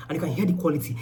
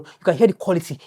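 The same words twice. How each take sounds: First: Thin phone audio, no lav; recorded on the bare phone mic; bad phone mic. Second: Said in the usual way. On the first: Real, not acted. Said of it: "I think you can hear the difference". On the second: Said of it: "if I go back to my D J I wireless microphone".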